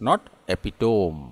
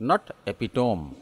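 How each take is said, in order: The two takes are said the same way.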